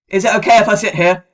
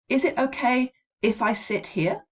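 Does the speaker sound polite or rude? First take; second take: rude; polite. First: It is asked in a rude, impolite tone. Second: It is asked in a polite, friendly tone. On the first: The request comes across as impolite. The speaker calls it wrong. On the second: A genuine, courteous request. The speaker calls it right.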